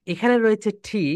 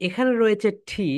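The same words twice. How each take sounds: The two takes are said the same way.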